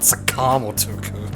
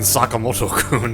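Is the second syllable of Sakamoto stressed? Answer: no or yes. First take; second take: yes; no. First: The second syllable carries the stress. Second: The second syllable carries no special stress. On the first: "with the uh, emphasis on the second syllable" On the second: "You mean"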